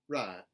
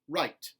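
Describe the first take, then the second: First: It has a flatter, 'ah'-like vowel. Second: It has a full gliding 'eye' vowel. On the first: "the intermediate A for contemporary Southern" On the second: "General American I"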